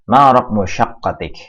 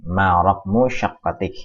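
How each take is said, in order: First: "ma raqmu syaqqatik" said louder, stress on "ma"; emphatic model question. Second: "Ma raqmu syaqqatik" said slowly, stress on "raqmu"; slow dictation of "Ma raqmu syaqqatik"; slow repeat. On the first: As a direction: announce "ma raqmu syaqqatik" boldly. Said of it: "teacher reads the example question". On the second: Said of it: "teacher repeats the question slowly". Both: Shown as a demonstration.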